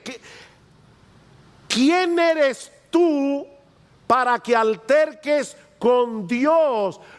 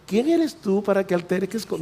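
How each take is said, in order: First: It is said in a stern, confronting tone. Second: It is said in a mild, gentle tone.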